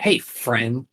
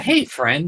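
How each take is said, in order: First: It is said in a cold, hostile tone. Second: It is said in a warm, friendly tone. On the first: The greeting is a veiled threat or challenge. "that's not nice" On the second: The greeting is kind and welcoming. "and that's nice"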